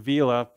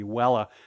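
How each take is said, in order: First: It is pronounced in a modern English style. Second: It is pronounced in an old Latin style.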